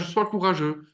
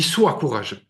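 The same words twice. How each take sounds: First: It is said casually, as an empty remark. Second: It is said firmly, as a command. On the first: It is easy advice with nothing behind it. The speaker calls it wrong. "il te le dit pas comme ça" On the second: It is a real order to be obeyed. The speaker calls it right. "C'est un ordre"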